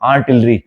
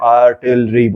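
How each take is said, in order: First: The word is spoken with a nasal, hoarse voice. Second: The word is broken into separate, evenly spaced syllables. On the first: The speaker has dysphonia with paralysed vocal cords. "उसके नाक से आवाज आएगी" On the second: The speaker has a cerebellar speech disorder. "Scanning speech"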